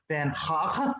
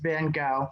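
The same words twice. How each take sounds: First: The name is said closer to its original pronunciation. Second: The name is said with an American pronunciation. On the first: "if we were going to be really authentic, it would be something closer to Van Gogh" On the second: "I'm just going to do it the American way"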